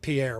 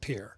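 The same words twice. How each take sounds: First: The name is not said like 'peer'. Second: The name is said like 'peer'. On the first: This is how the spelling suggests it is said. "that word is definitely Pierre" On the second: This is how locals say it. "they pronounce it Pierre"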